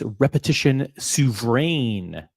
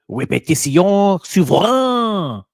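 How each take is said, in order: First: It is said with an English pronunciation. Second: It is said with a French pronunciation. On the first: "I would say it's repetition souverain in English" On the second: "I'm trying my best French"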